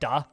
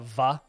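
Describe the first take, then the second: First: The word begins with a D sound. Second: The word begins with a V sound. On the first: "with like a D" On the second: "with like a V sound"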